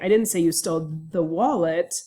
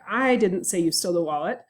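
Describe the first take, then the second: First: The word 'wallet' carries the stress. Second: The word 'I' carries the stress. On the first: You stole something, but not the wallet. "I didn't say it was a wallet that you stole" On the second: Someone else said it, not me. "means that I think someone else might have said it, but it wasn't me"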